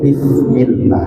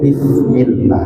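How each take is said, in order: First: It is said with a th-like sound. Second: The same.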